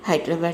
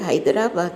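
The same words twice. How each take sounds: First: It is said the usual, everyday local way. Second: It is said closely following the written spelling. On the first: The speaker calls it wrong. "మనము మా మామూలుగా హైదరాబాద్ అనేది అలవాటు కదా" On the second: The speaker calls it right. "కానీ ఇది హైదరాబాద్ అని పలకాలి, ఎందుకంటే ఇక్కడ స్పెల్లింగ్ అలా ఉంది"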